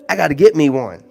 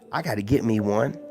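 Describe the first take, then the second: First: One louder, certain; emphatic. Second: Said in the usual way. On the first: Shown as a demonstration. To the ladies in chat, louder and certain. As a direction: say it like a decision.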